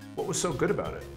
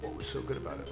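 First: It is asked sincerely, with real curiosity. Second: It is asked mockingly, as a dismissive jab.

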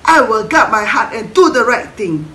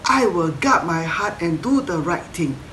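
First: It is said very fast. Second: It is said a bit faster.

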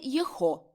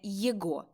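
First: The middle consonant is an h sound. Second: The middle consonant is a hard g sound. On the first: "і не «єхо»" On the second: "а не «єго»"

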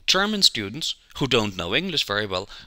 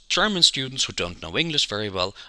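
First: There is a pause after 'students'. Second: There is no pause after 'students'. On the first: All German students do not know English well. "Second sentence, ... All of them" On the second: Only some German students do not know English well. "First sentence, ... Only the ones that don't know English very well"

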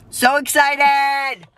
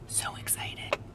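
First: It is spoken aloud. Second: It is whispered.

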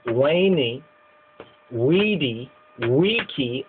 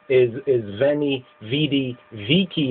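First: Each word begins with a W sound. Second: Each word begins with a V sound. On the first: This is the older, original pronunciation. "and the older way is" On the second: This is the modern pronunciation. "The modern way is"

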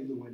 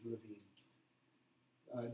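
First: The name has an American English pronunciation. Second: The name has a German pronunciation. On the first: "most people say Lewin in the United States" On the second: "the German pronunciation"

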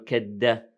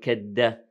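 First: The consonant after ka is a d sound. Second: The consonant after ka is a d sound.

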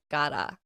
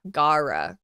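First: The name is said without a strong R sound. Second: The name is said with a strong English R. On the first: The speaker calls it right. "Because they don't say the R" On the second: The speaker calls it wrong. "It's not Gaara"

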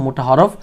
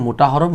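No difference in how they are said.

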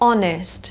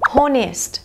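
First: The word begins directly with a vowel sound. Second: The word begins with an H sound. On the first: The speaker calls it right. "ตัว H ไม่มีเสียงจ้าเราก็จะข้ามไปที่ตัว O" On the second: The speaker calls it wrong. "คำนี้กี่ได้ยินหลายครั้งนะคะก็คือ"

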